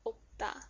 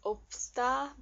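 First: No s sound is heard before the final syllable. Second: An s sound is heard before the final syllable. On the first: The speaker calls it right. "they close the sound for this" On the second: The speaker calls it wrong. "you'd think it's opsta, but no, that's not right either"

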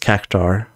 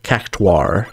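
First: The ending is said as one syllable, 'tar'. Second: The ending is said as two syllables, 'too-ar'. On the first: "rather than just Cactar" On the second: "they pronounced it with a very distinct difference"

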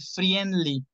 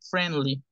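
First: An extra 'i' vowel sound is heard. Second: No 'i' vowel sound is heard. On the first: The speaker calls it wrong. "Muchas personas cometen el error de decir friendly" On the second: The speaker calls it right. "La I no suena, es friend, friendly"

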